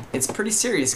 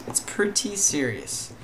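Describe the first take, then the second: First: Said in the usual way. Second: "pretty" drawn out high; slow, raised emphasis on "pretty"; stress on pretty. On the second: Real, not acted. Repeats the phrase for emphasis.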